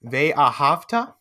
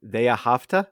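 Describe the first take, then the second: First: "Ve'ahavta" said slowly, syllable by syllable; teacher's slow, separated model word; staccato. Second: "Ve'ahavta" repeated with a rise; learner's repeat. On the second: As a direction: copy "Ve'ahavta" back tentatively. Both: Shown as a demonstration. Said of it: "We'll do one word at a time".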